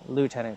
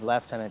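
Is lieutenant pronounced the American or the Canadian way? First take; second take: American; Canadian. First: It is said with an American pronunciation. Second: It is said with a Canadian pronunciation. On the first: "they all use American terms for everything, like lieutenant" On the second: "instead of lieutenant, even though Canadian English is"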